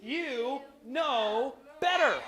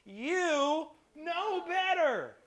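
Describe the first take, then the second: First: "You know better." heel langzaam, "better" zwaar aangezet en dalend; slow stern "you know better". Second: "You know better." heel traag, "better" lang en dalend; slow stern "you know better". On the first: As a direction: draw it out like a disappointed mom, leaning on "better". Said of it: "she'll say three words". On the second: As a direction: stretch every word like a parent's verdict. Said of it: "they're gonna look at you and say". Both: Retold or imitated.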